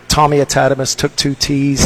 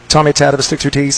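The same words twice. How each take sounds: First: It is said at a normal, slower pace. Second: It is said fast.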